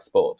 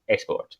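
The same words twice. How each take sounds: First: Said in the usual way. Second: "sport" with an "eh" before the S. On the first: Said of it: "finally we can say things like sport". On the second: Shown as a demonstration. Teacher showing the learner's error, extra E starting sport. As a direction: put a short E in front of "sport". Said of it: "without saying a sport".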